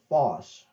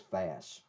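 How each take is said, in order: First: The vowel sounds like the one in 'cot'. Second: The vowel sounds like the one in 'cat'. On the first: The speaker calls it wrong. "I was calling it Foss" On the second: The speaker calls it right. "It is Fass"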